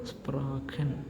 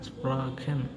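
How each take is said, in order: Both takes have the same delivery.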